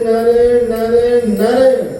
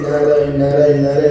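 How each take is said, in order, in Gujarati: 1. તે મોટેથી અને ગુસ્સાથી કહેવાયું છે. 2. તે ધીમેથી અને પ્રેમથી કહેવાયું છે. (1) "આટલું ક્રોધમાં નહીં" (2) "પ્રેમથી બોલો"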